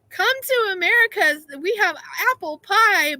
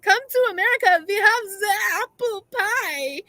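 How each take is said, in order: First: It is said in the speaker's plain accent. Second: It is said with a put-on German accent.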